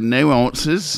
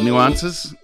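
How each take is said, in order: First: It is said in an Australian accent. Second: It is said in a plain American accent.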